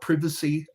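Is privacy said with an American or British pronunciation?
British. It is said with a British pronunciation.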